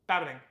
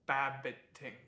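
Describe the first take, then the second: First: The word is said quickly. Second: The word is said slowly. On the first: "It's fun to say fast" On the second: "It's fun to say slow"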